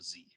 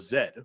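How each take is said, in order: First: The letter is said as zee. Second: The letter is said as zed. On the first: This is how people in America say it. "They probably wouldn't say World War Z" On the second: This is how people in the UK say it. "if we were walking around the streets somewhere in the U K ... somebody would say World War Z"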